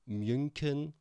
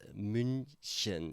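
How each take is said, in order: First: The middle consonant is not a ch sound. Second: The middle consonant is a soft ch sound. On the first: The speaker calls it wrong. "many people say or would say München" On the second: The speaker calls it right. "but it's München. It's a ch sound"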